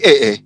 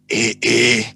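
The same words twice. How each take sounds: First: It sounds surprised, like a startled exclamation. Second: It sounds pleased, as if enjoying a drink.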